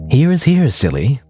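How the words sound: It is said in an evil voice.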